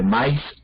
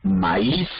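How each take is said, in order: First: The a and i merge into one syllable. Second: The a and i are in separate syllables. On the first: This is how ordinary people say it colloquially. "como la gente común y corriente que dice maíz, allí hay diptongo" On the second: This is the standard pronunciation. "la palabra estándar de español maíz o baúl, ¿sí?, allí no hay diptongo"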